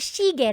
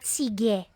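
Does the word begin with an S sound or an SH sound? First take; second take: SH; S. First: The word begins with an SH sound. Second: The word begins with a plain S sound. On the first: The speaker calls it right. "should be shige" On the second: The speaker calls it wrong. "not sige"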